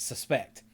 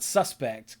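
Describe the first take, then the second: First: The stress is on the second syllable. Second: The stress is on the first syllable. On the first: It is used as a verb. The speaker calls it right. "which is a verb" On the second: It is used as a noun. The speaker calls it wrong. "that's a noun"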